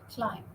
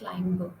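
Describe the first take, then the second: First: The word ends without any b sound. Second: A b sound is pronounced at the end. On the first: The speaker calls it right. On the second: The speaker calls it wrong.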